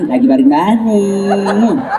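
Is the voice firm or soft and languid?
soft and languid. It is said in a soft, languid, swooning voice.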